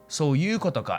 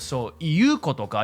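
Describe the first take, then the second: First: The phrase is said in a shortened, reduced form. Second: The phrase is said in its full, careful form. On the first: "because you're that lazy, can't be bothered to move your throat muscles" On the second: "instead of"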